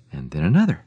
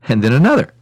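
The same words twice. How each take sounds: First: Said in the usual way. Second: Higher, louder mounting repetition; escalating. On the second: A narrator's reading. Storyteller counting bunch after bunch of grapes, escalating. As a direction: build the amazement as it piles up.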